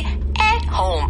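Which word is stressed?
at. The stress falls on the word at. The speaker calls it wrong. "하진 않는다"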